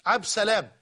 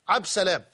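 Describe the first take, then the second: No difference in how they are said.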